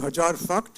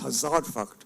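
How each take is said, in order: First: The first word is said with a 'j' sound. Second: The first word is said with a 'z' sound. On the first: It is the deliberate Delhi University campus mispronunciation. The speaker calls it wrong. "why are you saying Hajar Fakt?" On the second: It is the standard pronunciation. The speaker calls it right. "It's Hazar Fakt"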